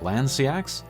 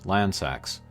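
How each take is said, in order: First: The E is sounded as a separate vowel. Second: The E is silent, with no extra vowel. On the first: The speaker calls it wrong. "pronouncing the E separately, so it's like Landsiax" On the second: The speaker calls it right. "the E in there at the end is silent, so it's just Landsax"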